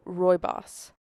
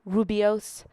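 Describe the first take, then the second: First: It is said like 'roy-boss'. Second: It is said like 'roo-bee-ose'. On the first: The speaker calls it right. "somebody named Roy and he's the boss" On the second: The speaker calls it wrong. "I kept on calling it Rubios"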